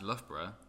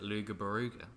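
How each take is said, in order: First: It is said as a short 'Luff-bruh'. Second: It is said as a long 'Luga Baruga'. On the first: The speaker calls it right. "it's pronounced Loughborough" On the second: The speaker calls it wrong. "they pronounce it Luga Baruga"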